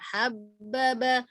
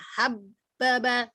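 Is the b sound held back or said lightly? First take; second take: light; held back. First: The b sound is released lightly and normally. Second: The b sound is held and pressed. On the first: The speaker calls it right. "Biasa aja habbaba. ... enteng juga ya bunyinya" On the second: The speaker calls it wrong. "jangan dita ditahan dulu. Artinya jangan habbaba, jangan begitu"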